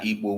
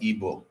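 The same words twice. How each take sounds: First: The name is said with native Igbo sounds. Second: The name is said with anglicized sounds. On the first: This is how speakers of the language say it. The speaker calls it right. "We are Igbo" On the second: This is how outsiders who cannot say it pronounce it. The speaker calls it wrong. "it is wrong. Stop it"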